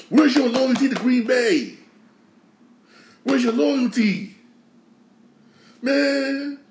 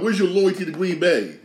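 First: Wounded fan shouting at the departed player; exasperated outcry. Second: Said in the usual way. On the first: Real, not acted. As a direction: call him out for betraying the team.

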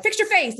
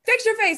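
First: Much higher mock parent telling you off; lightly mocked parent scolding. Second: High, mocking parent voice; parent's scolding echoed in a high mock voice. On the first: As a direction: imitate a parent snapping at a sulky kid. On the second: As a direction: parrot the parent's scolding with a laugh in it. Parents scolding a kid, repeated.

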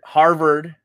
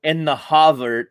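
First: Said in the usual way. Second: "Harvard" with the first R dropped, HAH-vard; Boston pronunciation. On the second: Shown as a demonstration. Co-host prompting the next words, "Harvard" said HAH-vard, Boston style. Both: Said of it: "it's a Boston thing".

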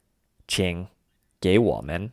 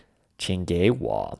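First: 请, a clear pause, then a slow 给我们; broken-up version. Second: 请给我 run together, first two words rising in second tone; run-together tone change. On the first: Teacher showing the version she chose, pause between 请 and 给我们. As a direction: break after 请 in its third tone, then rise on 给 into 我们. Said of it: "breaking up version, the latter version". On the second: Teacher showing learners the say-them-together option, tone change on 请给我. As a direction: say 请给我 in one go, 请 and 给 as second tones. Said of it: "making the first two words second tones".

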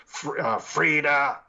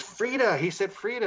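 First: Imitating a spirit, loud drawn-out name; a hint of an eerie voice, louder; deep spirit voice. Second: Much higher, startled mimicry; imitated excited woman. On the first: Investigator retells a spirit answering him, imitated deep voice. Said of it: "this deep voice goes". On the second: Investigator retells woman hearing her name, imitated excitement. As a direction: mimic her amazement in a high-pitched voice.

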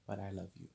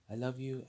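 First: Said in the usual way. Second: "love" pushed higher and louder; emphatic love. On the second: Real, not acted. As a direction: lean hard into "love", raising the voice.

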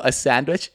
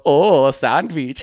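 First: Said in the usual way. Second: Put-on slow, stretched accented "Oh, a sandwich"; hammed-up coworker repeating an order; hacky Hassan. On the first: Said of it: "he'd just repeat what I said". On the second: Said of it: "kind of a hacky Hassan".

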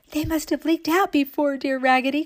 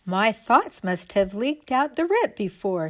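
First: High, eager agreement; excited cry. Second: Slightly lifted doll voice; a hint of a doll explaining herself; lightly voiced doll. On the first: All the other dolls agreeing with Raggedy, high excited cry. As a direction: echo her in a raised, keen voice. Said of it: "cried all the other dolls". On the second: Raggedy Ann explaining to the dolls, lightly voiced. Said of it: "said Raggedy Ann". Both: A narrator's reading.

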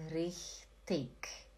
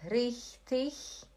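First: Richtig said softly with a final k; hard k ending. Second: Slow demo of richtig ending like ich; soft ch ending. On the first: Teacher contrasting two options for Lacerda, hard k ending. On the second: Teacher contrasting two options for Lacerda, soft ch ending. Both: Shown as a demonstration. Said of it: "tem duas opções".

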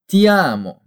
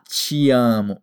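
First: "ti amo" with a pure T, "tee amo"; hard Italian T. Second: "te amo" mispronounced as "chi amo"; wrong softened T. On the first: Teacher corrects learners' pronunciation, hard T. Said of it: "como ti". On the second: Teacher warns learners what not to say, softened T. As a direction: demonstrate the mistake, a ch sound opening "te amo". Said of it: "tenha cuidado em não falar". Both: Shown as a demonstration.

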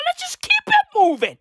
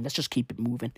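First: Much higher, lilting shrug; brushing off the president's update; mock-breezy sing-song. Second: Said in the usual way. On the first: Real, not acted. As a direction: toss it off in a high voice.

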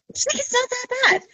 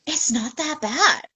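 First: High, dismissive friend impression; high-pitched reassurance. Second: Slow, slightly raised friend's voice; measured, retold downplaying; retold reassurance. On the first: Retold friend repeats it, much higher. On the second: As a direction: play it down slowly, voice lifted a little. Retold friend's first verdict.

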